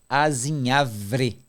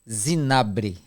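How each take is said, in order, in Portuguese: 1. A palavra começa com o som de a. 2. A palavra começa com o som de z. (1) "a pronúncia correta é aquela ali" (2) "o dito popular virou assim"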